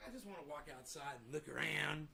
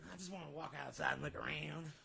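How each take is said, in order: First: Voicing the pet. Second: Said in the usual way. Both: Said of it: "He's like".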